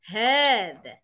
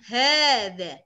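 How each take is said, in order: First: The first vowel is drawn out long. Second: The first vowel is drawn out long.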